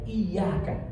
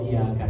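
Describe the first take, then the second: First: The y sound is held long and doubled. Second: The y sound is short and single. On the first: It means only to You. The speaker calls it right. "dengan ditasydid huruf ya, digandakan huruf ya-nya" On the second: It means sunlight. The speaker calls it wrong. "Kalau ditakhfif tanpa ditasydid, tanpa digandakan huruf ya"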